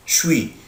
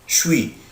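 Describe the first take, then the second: First: The words are squeezed into one short syllable. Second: The words are squeezed into one short syllable.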